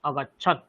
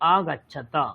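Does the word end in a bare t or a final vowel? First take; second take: bare t; final vowel. First: The word ends on a short bare t sound. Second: The word ends with a full vowel after t. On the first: "এটা আছে with হলন্ত" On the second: "without হলন্ত"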